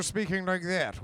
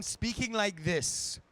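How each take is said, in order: First: Stiff received pronunciation, lips barely moving; uptight BBC English. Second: Lilting Welsh elf voice. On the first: Actor contrasting the dubbed elf voice, stiff BBC English. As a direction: clip it like a stiff BBC announcer. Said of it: "where nothing moves, and it was all very B B C". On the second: Actor contrasting the film's Welsh elf voice, slow and lilting. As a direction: let the words sing in a light Welsh accent. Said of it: "we went from speaking like this". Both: Shown as a demonstration.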